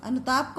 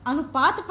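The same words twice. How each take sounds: First: Said in the usual way. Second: अनुताप misread as अनुपात, "pa" before "ta"; अनुपात, a pupil's slip ending in "-paat"; common misreading. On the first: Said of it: "अनुताप है". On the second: Shown as a demonstration. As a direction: say अनुपात with the p and t sounds swapped from अनुताप. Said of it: "इसको आप लोग क्या पढ़ देते हैं".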